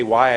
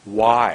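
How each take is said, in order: First: Said in the usual way. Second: "why" louder, vowel drawn out; a long, strong "why"; lengthened word. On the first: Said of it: "I didn't say why". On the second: Shown as a demonstration. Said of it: "I was making my words longer".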